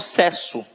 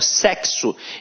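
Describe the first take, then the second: First: The x is not pronounced as ks. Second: The x is pronounced as ks. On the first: The speaker calls it wrong. "Eu não falo sexo" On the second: The speaker calls it right. "o X aqui tem som de K S"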